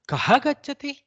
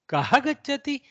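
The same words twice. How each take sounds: First: It is asked plainly with no extra emphasis. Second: It is asked dramatically, with kaha lifted and emphasized. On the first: It is a simple question about who goes. "Kaha gacchati is a simple" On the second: The speaker insists on knowing who goes. "a little more drama about who goes"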